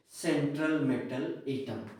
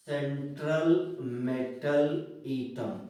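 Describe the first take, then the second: First: Said in the usual way. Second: Slow, stretched-out term, word by word; drawn-out teacher's dictation. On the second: Real, not acted.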